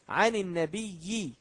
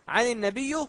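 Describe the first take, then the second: First: The word an-nabi ends with an i vowel. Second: The word an-nabi ends without an i vowel. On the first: The speaker calls it right. "نضع كسرة" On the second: The speaker calls it wrong. "خطأ"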